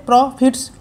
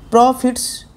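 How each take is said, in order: First: "প্রফিটস" divided as pro-fits; split in two. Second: "প্রফিটস" slower, as pro, then fits; split in two, drawn out. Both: Shown as a demonstration. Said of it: "প্রফিটসটাকেও দুভাবে কাটা যাবে".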